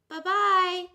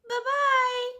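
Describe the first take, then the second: First: It is said in a medium voice. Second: It is said in a high squeaky voice.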